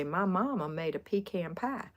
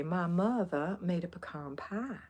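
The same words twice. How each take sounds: First: Harder Georgia twang, PEE-can pie; coastal Georgia accent. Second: Put-on soft Georgia accent. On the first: Retold or imitated. Quoting people over there on the coast, coastal Georgia accent. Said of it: "they talked in that accent". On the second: Quoting folks where I went to school, soft Georgia accent. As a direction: imitate a Georgia accent, pie as "pah". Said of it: "that's the way they talked".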